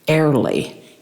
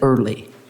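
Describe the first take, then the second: First: It is said with a Scottish accent. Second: It is said with a plain American accent.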